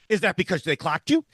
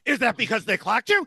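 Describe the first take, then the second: First: The voice sounds only slightly tense. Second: The voice sounds noticeably more tense. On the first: "in an increasingly tenser voice" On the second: "in an increasingly tenser voice"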